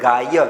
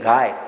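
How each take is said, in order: First: The final 'y' is pronounced as a full syllable. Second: The final 'y' is reduced to a half-vowel glide. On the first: The speaker calls it wrong. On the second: The speaker calls it right.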